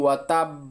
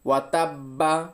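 First: The final b stops dead with no release. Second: The final b is followed by a full vowel. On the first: "ওয়াতাব বলে চুপ করে থাকি।" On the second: "আমরা এখানে অনেকেই বলি ওয়াতাব্বা, এইভাবে বলি।"

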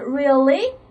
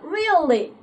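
First: The voice rises at the end. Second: The voice falls at the end. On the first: It asks in surprise whether something is true. "第一个问句的话就是really?" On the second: It states that something is truly so. "语气不同，我们的表示的问句还是肯定句。"

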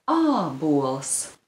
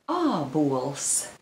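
No difference in how they are said.

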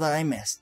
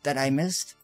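First: The voice falls at the end like a statement. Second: The voice rises at the end like a question.

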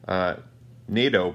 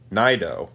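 First: The name sounds like 'NATO'. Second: The name does not sound like 'NATO'. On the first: The speaker calls it right. "pronounced like the military alliance between the United States and European countries" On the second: The speaker calls it wrong. "who I believed was called Naido"

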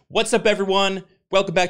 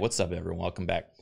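First: It is said with lively, high energy. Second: It is said with flat, low energy. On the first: "I'm going to put a whole kind of spin of new energy on this time" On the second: "I'll do low energy voice"

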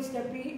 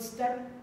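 First: The word ends with an added ee vowel. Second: The word ends on the p consonant. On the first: This is how the speaker's own group says it. "we call it steppy" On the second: This is how the people here say it. "people here call it step"

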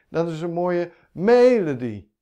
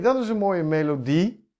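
First: The stress is on the first syllable. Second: The stress is on the last syllable. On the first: The speaker calls it wrong. "Als de klemtoon op de eerste zou zitten" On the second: The speaker calls it right. "dit klinkt herkenbaar"

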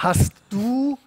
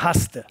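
First: Both words are said fully and separately. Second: The words merge into one contracted word ending in -te. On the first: This is the standard language. "statt hast du" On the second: This is the casual regional everyday speech. "oder haste"

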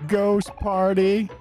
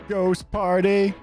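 Both takes have the same delivery.

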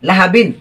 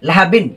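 The two takes are said the same way.

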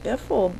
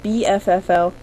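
First: It is said as one two-syllable word. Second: It is spelled out as four separate letters. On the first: "we just pronounce it biffle" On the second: "everybody knows how to say B-F-F-L"

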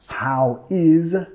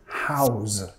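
First: Two separate words are said in full. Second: One short syllable ends in a z sound.

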